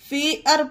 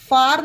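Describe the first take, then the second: First: The vowel glides like 'air'. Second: The vowel is a plain open 'ah' sound. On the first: The speaker calls it right. "फेयर पढ़ेंगे" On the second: The speaker calls it wrong. "इसे फार नहीं पढ़ेंगे"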